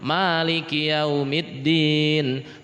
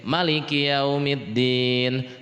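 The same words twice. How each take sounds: First: The first vowel of Maliki is held long. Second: The first vowel of Maliki is kept short. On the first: "pada rakaat pertama dibaca panjang" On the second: "Rakaat kedua dibaca pendek"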